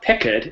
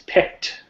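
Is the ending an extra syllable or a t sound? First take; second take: extra syllable; t sound. First: The ending is said as a separate syllable. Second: The ending is a short t sound. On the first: The speaker calls it wrong. "it's not picked" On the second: The speaker calls it right. "it's picked"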